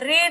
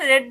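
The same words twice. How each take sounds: First: The word is said with a long 'ee' vowel. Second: The word is said with a short 'e' vowel. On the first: It is the present tense form. The speaker calls it wrong. "இத read ன்னு சொல்லாம" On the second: It is the past tense form. The speaker calls it right. "read ன்னு சொல்லணும் verb to"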